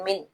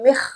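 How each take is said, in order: First: The final consonant is a clear n sound. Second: The final consonant merges into a kh sound. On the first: The speaker calls it right. "नून को नॉर्मली जैसे पढ़ा जाता है" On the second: The speaker calls it wrong. "यहाँ पर इदगाम भी नहीं करेंगे"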